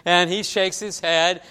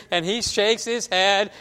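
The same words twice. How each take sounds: The two takes are said the same way.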